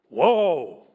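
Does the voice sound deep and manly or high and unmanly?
deep. It is said in a deeper, manlier voice.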